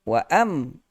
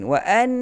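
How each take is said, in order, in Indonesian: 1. Bibir menutup, menghasilkan bunyi m. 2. Bibir tetap terbuka, menghasilkan bunyi n. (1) "Kalau rapat wa am mim" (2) "jangan rapat bibir"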